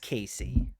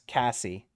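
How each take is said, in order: First: The first vowel is long, as in 'say'. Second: The first vowel is short, as in 'ass'.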